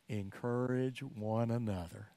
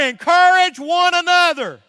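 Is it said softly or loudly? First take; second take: softly; loudly. First: It is said softly. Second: It is said loudly.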